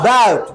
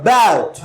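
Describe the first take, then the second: Both takes have the same delivery.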